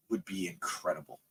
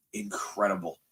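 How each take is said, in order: First: Said in the usual way. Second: A breathy whispered repeat of the word. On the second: Real, not acted. Repeats it under his breath.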